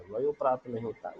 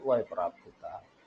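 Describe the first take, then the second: First: "वयो प्राप्त" rattled off quickly as the wrong form; the rejected "वयो" said briskly; fast wrong take of "वयो प्राप्त". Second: "वय प्राप्त" said lower and settled as the right form; the correct "वय" set down low and firm; low, steady right take of "वय प्राप्त". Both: Shown as a demonstration.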